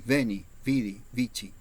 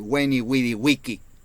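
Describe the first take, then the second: First: The words begin with a v sound. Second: The words begin with a w sound. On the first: "en latín" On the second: "Qué mal suena decir"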